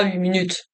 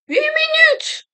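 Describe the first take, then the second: First: Said in the usual way. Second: Very high squealed disbelief; startled falsetto outburst; shocked exclamation. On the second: Real, not acted. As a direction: squeal it out in shock, pitch shooting up. Shocked at the game clock.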